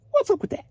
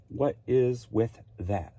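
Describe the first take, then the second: First: Very high, squeaky comic voice; squeaky echo. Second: Said in the usual way. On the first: Pretend. Echoing own complaint about sales, comically squeaky. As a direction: repeat it in a silly falsetto.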